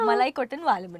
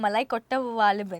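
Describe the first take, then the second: First: An n sound is added after Kotta. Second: No n sound is heard after Kotta. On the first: The speaker calls it wrong. "don't say the n in between" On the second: The speaker calls it right.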